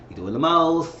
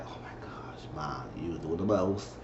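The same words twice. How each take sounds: First: Said in the usual way. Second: Whispered, embarrassed complaint; annoyed whisper. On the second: Retold or imitated. Grace embarrassed by her mother, whispered complaint. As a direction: hiss it so Mom can't hear. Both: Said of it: "She was like".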